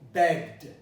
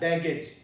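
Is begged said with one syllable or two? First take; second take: one; two. First: The word has one syllable with no vowel before d. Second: The word has two syllables with a vowel before d. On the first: The speaker calls it right. "you don't pronounce the E in the past of beg" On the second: The speaker calls it wrong. "not begged"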